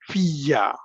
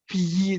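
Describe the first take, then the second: First: The word continues with a doubled 'y' sound. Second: The word stops short after the vowel 'fi'. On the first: The speaker calls it right. "they prefer to read it as fiya" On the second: The speaker calls it wrong. "instead of saying fi, just stopping it there"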